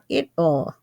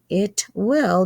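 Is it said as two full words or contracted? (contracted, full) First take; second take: contracted; full. First: One contracted word, will reduced to ll. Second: Two full words, will said separately. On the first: "becomes he'll, she'll, or it'll" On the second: "it will becomes"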